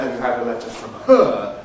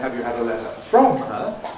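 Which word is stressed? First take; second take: her; from. First: The stress falls on the word her. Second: The stress falls on the word from. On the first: It contrasts her with somebody else. "unless we're making contrast between her and somebody else" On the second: It contrasts from with another preposition. "unless we're making a contrast between from and some other preposition"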